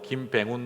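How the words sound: It is said in a Gyeongsang dialect accent.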